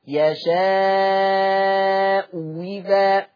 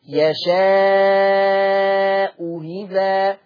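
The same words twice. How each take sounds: First: The second hamza becomes a full w sound. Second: The second hamza is softened, between hamza and vowel. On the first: "والابدال" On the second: "التسهيل"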